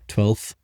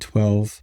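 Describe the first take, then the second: First: The word ends with an added th sound. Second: The word ends in a plain v sound. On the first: The speaker calls it wrong. "I usually say it with like the T H" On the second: The speaker calls it right. "But you just said it correct that time"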